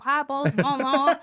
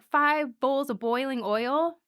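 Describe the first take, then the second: First: Put-on loud, drawly Southern accent; hammed-up Southern accent. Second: Said in the usual way. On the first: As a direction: put on a broad Southern twang. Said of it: "'cause in a Southern accent". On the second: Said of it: "in a Southern accent".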